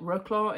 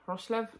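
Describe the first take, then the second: First: The name is said in an anglicized way. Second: The name is said in a Polish-style way. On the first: This is how people in the UK say it. "We would call it Wrocław in the U K, but I'm certain that's not right" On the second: This is the local pronunciation. "I think it's Wrocław"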